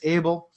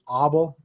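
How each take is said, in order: First: The name is said with English pronunciation. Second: The name is said with Argentinian pronunciation. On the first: "his last name was Abel" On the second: "over in areas of Europe like Argentina, they tend to pronounce it as Abel"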